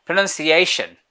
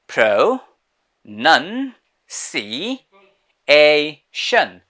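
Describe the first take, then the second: First: Said in the usual way. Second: "pro, nun, si, a, shun" with a clear pause after each syllable; broken into syllables. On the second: Shown as a demonstration. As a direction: sound out "pro, nun, si, a, shun" piece by piece for a learner. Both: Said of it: "break it down into separate sections".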